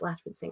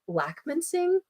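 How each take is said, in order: First: The middle consonant is a ch sound. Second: The middle consonant is a hard k sound. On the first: This is how the family says the name. "but it's it's Latchman Singh" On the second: This is how other people commonly say it. "People say it like Lackman Singh, which is fine too"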